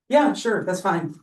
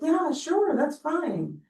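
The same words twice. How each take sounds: First: It is said in a curt, annoyed tone. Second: It is said in a soft, gentle tone. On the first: The speaker is mad and does not really agree. "she's pissed" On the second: The speaker actually cares and agrees. "If I say it very gently"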